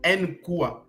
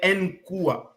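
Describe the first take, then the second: No difference in how they are said.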